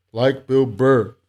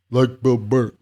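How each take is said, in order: First: A hint of Bill Burr, slow and punchy; mock Bill Burr. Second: Said in the usual way. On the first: Reading a viewer's comment in a light Bill Burr voice. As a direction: lightly do Bill Burr's rant voice. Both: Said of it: "That's exactly how he talks too".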